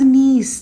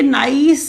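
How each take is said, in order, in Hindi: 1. स्वर 'piece' के 'ie' जैसा सुनाई देता है। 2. स्वर 'ice' के 'i' जैसा सुनाई देता है। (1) "that's how we pronounce it" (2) "प्लीज ये नाइस नहीं है"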